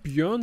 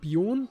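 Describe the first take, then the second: First: The vowel is a rounded front ö sound. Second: The vowel is a plain back o sound. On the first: The speaker calls it wrong. "nicht Björn" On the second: The speaker calls it right. "sondern Bjorn"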